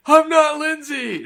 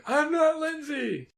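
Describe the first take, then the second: First: High, slow, loud mock shriek; mock scream. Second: High, slow shrill wail at normal volume; high mock wail. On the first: Cohost imitates the girl screaming at the pool, hammed-up shriek. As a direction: ham up a shrill scream. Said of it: "how does she scream". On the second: Cohost repeats the scream as a high, slow mock wail.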